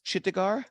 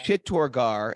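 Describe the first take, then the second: First: "Chittagar" with a short middle "ta", no "or"; unsure pronunciation. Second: "Chittorgarh" with a full "tor" in the middle; corrected pronunciation. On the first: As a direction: say "Chittagar" as a questioning guess, middle syllable reduced. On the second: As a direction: repeat "Chittorgarh" carefully, sounding the middle "or". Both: Real, not acted. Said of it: "Chittorgarh, yeah".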